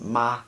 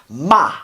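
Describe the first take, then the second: First: The pitch stays level and flat. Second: The pitch is sharp and forceful, like bam. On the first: "the first one is like this, it's flat" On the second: "the fourth tone is like bam"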